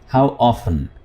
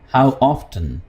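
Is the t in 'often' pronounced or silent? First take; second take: silent; pronounced. First: The t in 'often' is silent. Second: The t in 'often' is pronounced.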